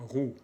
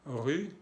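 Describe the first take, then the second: First: RU said as roue, back oo; French ou sound. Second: RU said as rue, fronted rounded vowel; French u sound. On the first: Teacher warning against ru, back oo vowel. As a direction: say RU like Spanish u. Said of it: "No hay que decir ru aquí". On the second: Teacher contrasting two vowels, fronted French u. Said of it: "los sonidos U". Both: Shown as a demonstration.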